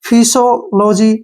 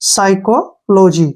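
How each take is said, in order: First: The word begins with a p sound. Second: The word begins with an s sound. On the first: The speaker calls it wrong. "कुछ भी पढ़ेंगे ... लेकिन वो गलत है" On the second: The speaker calls it right. "पी यहाँ पे silent रहेगा"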